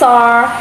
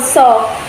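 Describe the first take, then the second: First: The vowel ends with an added er sound. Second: The vowel is said plainly with no er sound.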